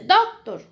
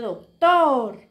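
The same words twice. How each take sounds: First: The stress is on the first syllable. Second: The stress is on the last syllable. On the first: The speaker calls it wrong. "Usted no dice doctor, no" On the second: The speaker calls it right. "se dice doctor ... tor es la sílaba tónica"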